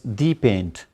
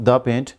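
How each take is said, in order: First: 'The' is said with a long 'thee' sound. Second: 'The' is said with a short 'thuh' sound. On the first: This is the best paint in the world. "the is being used because he wants to give it some sort of uh, speciality" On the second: It is just some paint. "not the paint"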